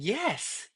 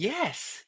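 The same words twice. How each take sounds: First: The voice sounds forward, bright and spread. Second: The same.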